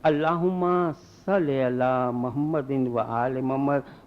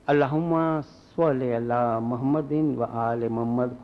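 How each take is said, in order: First: Salli begins with a plain light s sound. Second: Salli begins with a heavy sw-like s sound. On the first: God, kill Muhammad and his family. The speaker calls it wrong. "Pronounce में जरा गलती है" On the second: God, send mercy upon Muhammad and his family. The speaker calls it right. "खुदाया रहमत भेज मोहम्मद और इसकी आल पर।"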